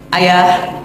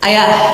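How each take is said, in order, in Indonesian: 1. Panggilan itu diucapkan dengan nada normal. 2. Panggilan itu diucapkan dengan nada agak lebih tinggi. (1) "saya panggil dari belakang" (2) "panggilan kedua suaranya naik setengah oktav"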